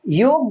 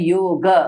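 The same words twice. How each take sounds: First: The word ends on the bare 'g' consonant. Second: The word ends in a short, light 'a' vowel. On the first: The speaker calls it wrong. "गकार में एंड हो जाएगा, वो भी सही नहीं है" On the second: The speaker calls it right. "सही जो उच्चारण है इसका होता है योग"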